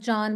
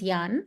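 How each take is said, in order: First: The word begins with an English j sound. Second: The word begins with a y sound. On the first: The speaker calls it wrong. "it was not Jan" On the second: The speaker calls it right. "J was pronounced as Y"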